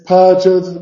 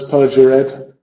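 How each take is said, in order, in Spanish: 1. La palabra se dice con dos sílabas. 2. La palabra se dice con tres sílabas. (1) "Es perjured, dos sílabas" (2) "no es perjured"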